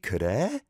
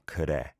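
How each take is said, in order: First: It sounds like a question, asking really. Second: It sounds like agreement, a flat statement.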